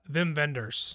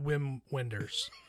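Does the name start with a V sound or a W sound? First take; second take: V sound; W sound. First: The name starts with a V sound. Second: The name starts with a W sound. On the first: The speaker calls it right. "You have to say it right" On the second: The speaker calls it wrong. "Not Wim Wenders"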